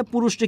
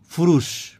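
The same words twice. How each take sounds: First: Said in the usual way. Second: ফুরুষ with ফ in place of প; regional ph for p. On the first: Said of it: "কি বলে?". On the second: Retold or imitated. Teacher quoting local people, ফুরুষ with aspirated first sound. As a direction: open ফুরুষ on an airy ph, falling. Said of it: "পুরুষটা কি বলে?".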